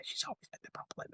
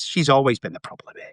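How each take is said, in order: First: Under-the-breath whisper; muttered whisper of blame; whispered aside. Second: Said in the usual way. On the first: Retold or imitated. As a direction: whisper it to yourself. Repeats line under breath.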